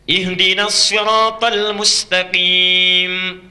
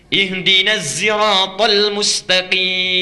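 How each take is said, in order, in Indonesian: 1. Siratal dimulai dengan bunyi s tebal. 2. Siratal dimulai dengan bunyi z. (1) "Pakai sod riwayat Hafiz" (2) "pakai zai bisanya"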